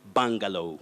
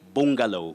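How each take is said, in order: First: The first vowel is a mid central sound. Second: The first vowel is not mid central. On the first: The speaker calls it right. "You say bungalow. That letter U takes the mid central sound" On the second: The speaker calls it wrong. "You don't say bungalow"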